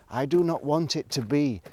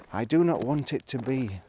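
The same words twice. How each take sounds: The two takes are said the same way.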